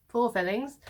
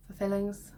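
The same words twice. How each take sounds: First: For stressed louder with a rising tune. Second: Said in the usual way. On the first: Shown as a demonstration. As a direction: punch the word for so it sounds like four. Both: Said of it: "not four fillings".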